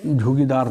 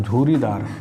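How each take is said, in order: First: झुर्रीदार said with a g sound for the rr, "jhu-gi-daar"; mispronounced word. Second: झुर्रीदार with a clear rr, "jhur-ree-daar"; corrected pronunciation. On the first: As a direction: say झुर्रीदार wrongly, g replacing the rolled r. (झुर्रीदार का गलत उच्चारण, "र्री" की जगह "गी") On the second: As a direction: say झुर्रीदार carefully, r sound in the middle, no g. (झुर्रीदार का सुधारा हुआ उच्चारण, साफ़ "र्री" के साथ) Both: Shown as a demonstration. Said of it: "झुर्रीदार नहीं, झुर्रीदार".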